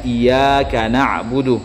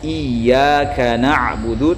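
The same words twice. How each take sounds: First: The y sound in iyyaka is single. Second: The y sound in iyyaka is doubled. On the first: The speaker calls it wrong. "tanpa mentasydid huruf ya-nya" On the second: The speaker calls it right.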